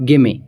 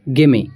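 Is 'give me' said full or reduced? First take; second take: reduced; reduced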